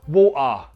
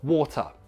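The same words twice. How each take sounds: First: A Cockney accent with a strong final vowel. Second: A plain, neutral British accent. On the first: "A Cockney, however, they will up the schwa like this"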